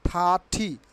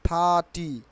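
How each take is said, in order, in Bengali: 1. t-টি জোরালো শ্বাসের সঙ্গে বলা হয়। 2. t-টি শ্বাসের ফুৎকার ছাড়া বলা হয়। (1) "ঠয়রস্যি ঠি" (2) "নট থার্টি"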